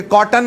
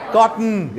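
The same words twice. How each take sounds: First: कॉटन with a full a between ट and न, kɔʈən; wrong cotton. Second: कॉटन with the vowel swallowed, kɔʈn; right cotton. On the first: Teacher shows the student the wrong way: कॉटन as kɔʈən. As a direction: say कॉटन spelled out in two clear syllables, kɔ-ʈən. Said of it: "तो ये कॉटन नहीं है". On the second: Teacher shows the student the right way: कॉटन as kɔʈn. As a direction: clip कॉटन so ट runs straight into न, kɔʈn. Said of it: "क्या बनेगा?". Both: Shown as a demonstration.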